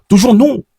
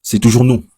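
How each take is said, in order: First: Proud high cry of toujours nous; a sudden proud yelp of joy; excited boast. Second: Said in the usual way. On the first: Real, not acted. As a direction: crow it out, pitched high with pride. Repeats the proud claim, pitched up.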